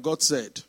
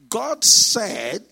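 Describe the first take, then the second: First: Said in the usual way. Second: "God said" punched loud and firm; "God said" as a weighty, louder pronouncement; emphatic GOD SAID. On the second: Retold or imitated. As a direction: declare "God said" with full conviction. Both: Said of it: "for somebody to say emphatically".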